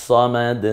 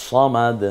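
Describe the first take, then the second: No difference in how they are said.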